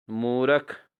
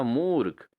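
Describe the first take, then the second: First: मूर्ख said as "moo-rak"; wrong pronunciation. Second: मूर्ख as one syllable, "moork"; correct pronunciation. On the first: Teacher shows students the error, मूर्ख as "moorak". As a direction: add a vowel after r in मूर्ख. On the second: Teacher corrects students, मूर्ख as "moorkh". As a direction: close मूर्ख on joined rk. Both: Shown as a demonstration. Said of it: "मूर्ख नहीं होता".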